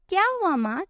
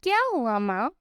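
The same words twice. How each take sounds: First: Playful teasing. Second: Lightly teasing question, voice kept low; a touch of playful mockery. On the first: Acted. Son teasing his worried mother, playful mock concern. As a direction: rib her playfully, lifting the voice. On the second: Son teasing his mother in the kitchen, mild joking tone. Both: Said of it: "अपनी माँ से मजाक में कहता है".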